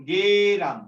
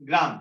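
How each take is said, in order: First: গেরাম said with an e between g and r, louder; spoken form geram. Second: Said in the usual way. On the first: Shown as a demonstration. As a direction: stretch গ্রাম out as গেরাম, ge-ram. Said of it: "এই জায়গাটা একটু উচ্চারণ করতে হবে". (স্পষ্ট করে গেরাম উচ্চারণ) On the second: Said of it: "এটা হলো গ্রাম".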